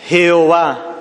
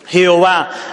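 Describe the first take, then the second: The two takes are said the same way.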